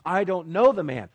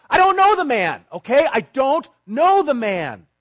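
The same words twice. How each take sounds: First: A firm, louder brushing-off denial. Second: High, loud, furious shout of denial; cursing shout. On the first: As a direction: deny it flatly and firmly. Peter denies amid questioning. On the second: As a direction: scream the denial, cursing, slowing at the end. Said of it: "He calls down curses". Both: Acted.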